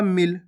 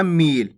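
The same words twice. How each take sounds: First: मिल with a brief i; short vowel. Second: मील with a long, stretched ee; drawn-out vowel. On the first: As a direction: say मिल without drawing out the vowel. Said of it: "इसको आपको खींच के नहीं पढ़ना". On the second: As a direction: drag out the vowel in मील as the mistake to avoid. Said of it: "ऐसे नहीं पढ़ना". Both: Shown as a demonstration.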